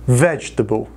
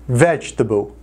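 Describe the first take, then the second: Both takes have the same delivery.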